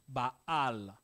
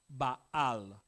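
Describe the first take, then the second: The two takes are said the same way.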